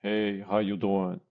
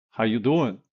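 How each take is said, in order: First: Formal, evenly pitched hello; formal greeting. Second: "doing" pitched up in a questioning lilt; loud, lilting question on "doing"; upward inflection. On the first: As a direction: greet them in a measured, formal way. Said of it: "don't say it in a formal way". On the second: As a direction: lift "doing" as if expecting an answer. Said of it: "do not use the upwards". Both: Shown as a demonstration.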